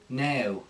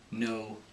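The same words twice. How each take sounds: First: The vowel sounds like a prim E-A-H glide. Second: A plain American long O vowel. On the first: "they go a little bit too proper with it" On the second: "In the American accent"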